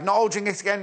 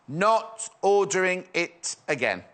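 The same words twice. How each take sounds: First: Said in the usual way. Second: Slow, word-by-word reminder; slow, emphatic repeat. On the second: Real, not acted. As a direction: spell it out one word at a time. Restates it slowly for emphasis.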